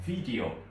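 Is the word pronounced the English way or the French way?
English. The word is pronounced with English sounds.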